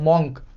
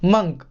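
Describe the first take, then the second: First: The vowel is an open 'o' as in 'bonk'. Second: The vowel is a short 'u' as in 'bunk'. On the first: The speaker calls it wrong. "अगर आपने इसे पढ़ा है मॉन्क तो आप गलत हैं" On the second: The speaker calls it right. "इसकी सही प्रोनाउंसिएशन होगी मंक"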